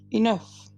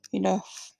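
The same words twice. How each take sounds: First: Louder, smiling firm repeat; repeated with a smile. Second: Said in the usual way. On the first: A narrator's reading. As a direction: say it again with a confident smile, louder. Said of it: "I repeated with a smile". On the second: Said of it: "I repeated".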